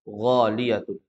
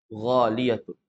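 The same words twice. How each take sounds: No difference in how they are said.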